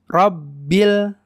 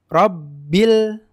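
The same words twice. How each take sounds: No difference in how they are said.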